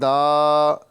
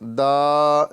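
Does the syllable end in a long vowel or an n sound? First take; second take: long vowel; long vowel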